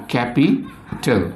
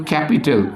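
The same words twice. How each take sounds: First: "capital" slowly broken, capi - tal; split into syllables. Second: Said in the usual way. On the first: Shown as a demonstration. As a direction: pause before the last syllable of "capital". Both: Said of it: "how many beats".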